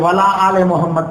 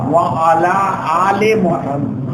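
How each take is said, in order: First: 'Wa' and 'ala' are run together as 'wala'. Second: 'Wa' and 'ala' are kept apart, with a long vowel. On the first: The speaker calls it wrong. "ये बहुत गलत है" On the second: The speaker calls it right. "दोनों जगह व आला है, ऐन लाम या वाली है, उसके ऊपर खड़ी जबर है"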